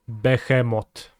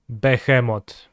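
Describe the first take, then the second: First: It is said with a Polish pronunciation. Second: It is said with a Polish pronunciation.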